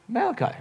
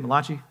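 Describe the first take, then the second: First: Said in the usual way. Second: Malachi said as ma-LAH-chee; playful mispronunciation. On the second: Shown as a demonstration. Preacher teasing the congregation with a prophet's name, Malachi mispronounced ma-LAH-chee. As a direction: say Malachi Italian-style, with a CHEE ending. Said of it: "really cool sounding name when you say it".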